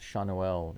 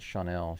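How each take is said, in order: First: The name does not sound like Chanel. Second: The name sounds like the word Chanel. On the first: The speaker calls it right. "Schanuel is apparently the proper pronunciation" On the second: The speaker calls it wrong. "not Chanel"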